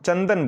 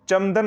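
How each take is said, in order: First: The nasal sound is pronounced like 'n'. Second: The nasal sound is pronounced like 'm'. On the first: The speaker calls it right. "आधा ना की तरह उच्चारित कर रहे हैं" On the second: The speaker calls it wrong. "चंदन नहीं बोल रहे हैं"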